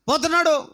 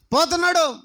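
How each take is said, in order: Both takes have the same delivery.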